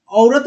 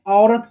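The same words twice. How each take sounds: First: "औरत" with a gliding o-u first vowel; wrong vowel. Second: "औरत" with an open au first vowel; correct vowel. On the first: Teacher rejects the misspelling, gliding-vowel "औरत". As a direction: glide the opening vowel of "औरत" towards u. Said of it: "औरत नहीं होता है". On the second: Teacher corrects the misspelling, open-vowel "औरत". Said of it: "औरत होता है". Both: Shown as a demonstration.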